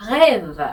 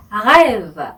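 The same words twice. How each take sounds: First: Short clipped rêve with throaty French R; rêve once more, brief and falling; French pronunciation. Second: Rêve drawn out slowly with a throaty French R; slow rêve, gargled R, falling end; French pronunciation. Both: Shown as a demonstration. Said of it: "이렇게 발음하시면 됩니다".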